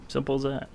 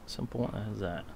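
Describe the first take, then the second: First: Said in the usual way. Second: Softer, trailing off; quiet. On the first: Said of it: "said twice". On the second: Shown as a demonstration. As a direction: let it fall away. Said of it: "said twice, second softer".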